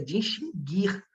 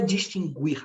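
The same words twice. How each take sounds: First: The u after the g is silent. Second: The u after the g is pronounced. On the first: The speaker calls it right. "a forma correta é distinguir" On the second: The speaker calls it wrong. "não é distinguir"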